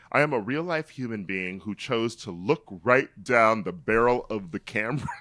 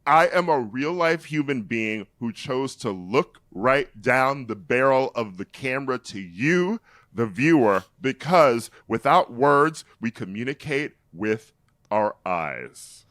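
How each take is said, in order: First: Said in the usual way. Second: Emphatic, projected dramatic reading; theater actor. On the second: Retold or imitated. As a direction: declaim it like a self-serious stage actor. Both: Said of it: "from a theater actor".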